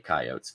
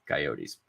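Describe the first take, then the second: First: It is said with a Midwestern pronunciation. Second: It is said with a non-Midwestern pronunciation.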